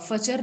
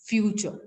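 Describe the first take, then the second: First: The first syllable is a short 'fa' sound. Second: The first syllable is a stressed 'fyoo' sound. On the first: The speaker calls it wrong. "फचर नहीं पढ़ सकते" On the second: The speaker calls it right. "You have to give the stress on एफ and यू both"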